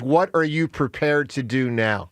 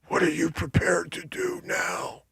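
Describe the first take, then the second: First: It is said in a normal voice. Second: It is said in a gurgling, dying voice.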